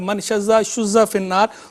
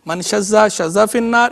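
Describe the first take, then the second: First: The third word begins with 'shu', vowel u. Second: The third word begins with 'sha', vowel a. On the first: "दोनों तरह पढ़ना दुरुस्त है" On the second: "दोनों तरह पढ़ना दुरुस्त है"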